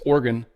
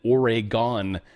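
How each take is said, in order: First: The word is said quickly, with reduced syllables. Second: Every syllable of the word is carefully pronounced. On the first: This is how the name really sounds. The speaker calls it right. "It's Oregon" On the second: This is how other people say it. The speaker calls it wrong. "as some people say"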